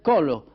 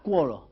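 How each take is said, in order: First: It begins with 'ko' and ends in 'o'. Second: It begins with 'kwo' and ends in 'a'. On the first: "en rhodanien" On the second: "on peut relever la cuola pour la colline"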